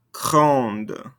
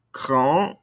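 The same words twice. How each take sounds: First: "grande" closed with a clear D; sounded ending consonants. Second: "Grand" rising, left open on the vowel; no D at the end of "Grand"; silent ending consonants. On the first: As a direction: let the D of "grande" be heard. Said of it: "makes us pronounce those ending consonants". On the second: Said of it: "don't pronounce these ending consonants". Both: Shown as a demonstration.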